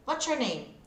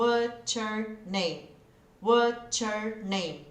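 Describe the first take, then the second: First: "What's your name?" at normal speed, linked as "watchur"; natural speed. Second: "What's your name?" slow with the T joined to "your"; slow linked practice. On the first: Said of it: "Aí eu coloco a velocidade ideal". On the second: Teacher showing slow linked practice. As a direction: stretch it out but glue it. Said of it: "não tô falando rápido". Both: Shown as a demonstration.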